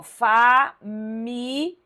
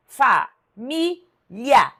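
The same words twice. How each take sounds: First: "família" em fa-mi-li-a, com pausas longas e o final partido; separação em quatro sílabas. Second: "família" em fa-mi-lia, com pausas longas e o final junto; separação em três sílabas. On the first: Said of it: "Você viu que tá assim". ("família" bem lenta, com hiato no final) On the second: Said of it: "separação igual, sílaba tônica igual". ("família" bem lenta, silabada com ditongo final) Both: Shown as a demonstration.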